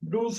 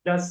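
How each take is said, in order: First: The vowel is a long 'oo' sound. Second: The vowel is a short 'uh' sound. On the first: The speaker calls it wrong. "டூஸ் படிக்க கூடாது" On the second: The speaker calls it right. "டஸ் படிக்கணும்"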